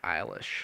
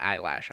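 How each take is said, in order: First: The name ends with a 'lish' sound. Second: The name ends with a 'lash' sound. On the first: The speaker calls it right. "her name is [name]" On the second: The speaker calls it wrong. "Is not Eyelash"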